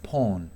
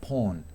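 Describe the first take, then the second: The two takes are said the same way.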